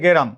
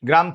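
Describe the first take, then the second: First: An extra e vowel separates the g and r. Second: The g and r form a cluster, no vowel.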